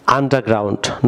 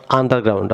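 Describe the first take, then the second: First: "underground" said as "AN-da-ground", silent r in "under"; correct pronunciation of underground. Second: "underground" said as "AN-dar-ground", r sounded in "under"; wrong pronunciation of underground. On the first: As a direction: drop the r after "unde-" in "underground". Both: Shown as a demonstration. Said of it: "not underground".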